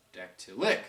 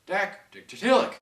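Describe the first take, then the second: First: Said in the usual way. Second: Dactylic slow, higher and louder, klemtoon op DAC; stress on DAC. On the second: Shown as a demonstration. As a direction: stretch out dactylic with the weight on dac.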